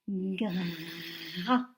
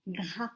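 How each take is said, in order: First: "Gras" low, with the r held long before the a; drawn-out syllable. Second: Said in the usual way. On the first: Shown as a demonstration. Teacher dictating to first graders, drawn out. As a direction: stretch out the r in "Gras", then land on a. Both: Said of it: "Vous m'écrivez maintenant la syllabe".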